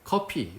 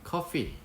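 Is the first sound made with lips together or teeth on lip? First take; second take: lips together; teeth on lip. First: The f is replaced by a p with both lips. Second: The f sound uses upper teeth on the lower lip. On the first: The speaker calls it wrong. "우리끼리 말할 때는 상관이 없지만요" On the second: The speaker calls it right. "F는 fine, I'm fine, coffee"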